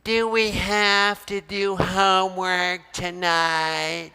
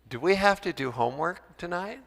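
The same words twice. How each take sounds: First: It is said in a whiny, unpleasant tone. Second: It is said in a pleasant, friendly tone. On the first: The child resents having homework. "That is such an unpleasant sound" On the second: The child is happy to ask. "Do they smile and say that in a pleasant way?"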